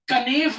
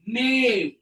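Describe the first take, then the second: First: The word begins with a K sound. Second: The word begins with an N sound. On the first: The speaker calls it wrong. "कनेव मत बोल देना" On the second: The speaker calls it right. "के silent है"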